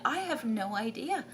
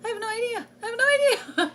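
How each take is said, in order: First: Said in the usual way. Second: High, loud, flustered I have no idea; rising panic. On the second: Retold or imitated. Mother overwhelmed by teaching her son, high flustered repeats. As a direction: pitch up and get louder each time. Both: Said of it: "I'm like".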